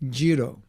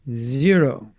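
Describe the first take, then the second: First: The word begins without any z sound. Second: The word begins with a clear z sound.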